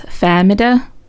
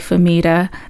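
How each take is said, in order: First: The name is said in the Arabic way. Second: The name is said in an Americanized way. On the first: This is how native Arabic speakers say it. The speaker calls it right. "The correct pronunciation, apparently, of my name is Famida" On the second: This is the everyday name used in school. The speaker calls it wrong. "I went to American school, so they called me a different pronunciation. I go by Famita"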